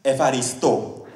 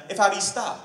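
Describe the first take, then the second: First: "Efaristo" slowly, ending on a clear "oh"; corrected pronunciation. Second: "Efaristo" ending on an open "ah"; mispronounced Greek thanks. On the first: Comic correcting his Greek buddy, slow careful "Efaristo" with final "oh". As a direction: enunciate "Efaristo" carefully, falling on a round final "o". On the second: Greek buddy thanking him for a pen, "Efaristo" with a loose "-ta" ending. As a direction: say "Efaristo" casually, last vowel as "ta". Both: Retold or imitated. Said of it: "it's pronounced".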